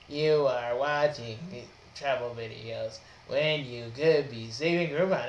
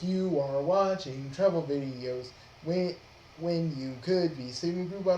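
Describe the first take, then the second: First: It is said flatly, without enthusiasm. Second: It is said with lively enthusiasm.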